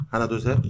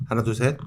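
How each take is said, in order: The two takes are said the same way.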